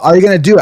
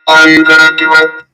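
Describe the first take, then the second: First: The voice sounds natural and unprocessed. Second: The voice is processed to sound robotic.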